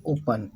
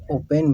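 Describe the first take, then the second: First: ओपन ending in a short 'un'; usual pronunciation. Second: ओपन with 'pen' as second syllable; alternative pronunciation. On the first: Teacher reading open for learners, usual pronunciation. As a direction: say ओपन as OH-pun. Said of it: "इसको पढ़ते हैं ओपन". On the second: Teacher showing how some people read it, alternative pronunciation. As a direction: say ओपन as oh-PEN. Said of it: "कुछ लोग ओपन भी पढ़ते हैं". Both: Shown as a demonstration.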